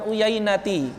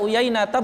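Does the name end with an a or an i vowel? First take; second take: i; a. First: The name ends with an i vowel. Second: The name ends with an a vowel. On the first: The speaker calls it wrong. "bukan Uyainati" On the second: The speaker calls it right. "dia dibaca Uyainata"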